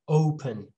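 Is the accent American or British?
American. It is said in an American accent. "And then American"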